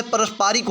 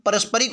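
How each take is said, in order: First: पारस्परिक said here as pa-ras-paa-rik; correct long vowel. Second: पारस्परिक said as pa-ras-pa-rik, all short "a"; wrong short vowel. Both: Shown as a demonstration. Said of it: "पारस्परिक होता है".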